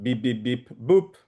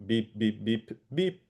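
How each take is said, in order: First: Beep tones with deviant. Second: Flat, even beeps imitating tones; a run of identical beeps. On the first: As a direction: imitate tones with an odd last one. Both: Shown as a demonstration. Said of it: "sorry, I will do it".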